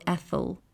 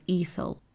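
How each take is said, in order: First: "ethel" with a short eh at the start; short-e pronunciation. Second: "ethel" with a long ee at the start; long-e pronunciation. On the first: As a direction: open "ethel" with eh, as in "egg". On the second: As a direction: open "ethel" with ee, as in "eat". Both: Shown as a demonstration. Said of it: "however you choose to pronounce that".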